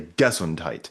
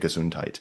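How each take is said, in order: First: The stress is on the first syllable. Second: The stress is on the second syllable. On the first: The speaker calls it wrong. "pronouncing the first syllable strongest" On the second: The speaker calls it right. "you say Gesundheit"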